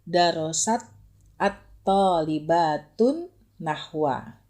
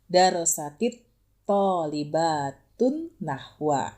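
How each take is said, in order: First: Darosat ends in t with no linking vowel. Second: Darosat joins the next word through an 'i' vowel.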